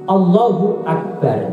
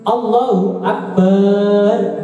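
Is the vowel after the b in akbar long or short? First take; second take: short; long. First: The vowel after the b is kept short. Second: The vowel after the b is drawn out long. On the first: It means God is the greatest. The speaker calls it right. "gak boleh baknya itu dipanjangkan" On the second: It could mean big drums instead of greatest. The speaker calls it wrong. "baknya panjang gak boleh"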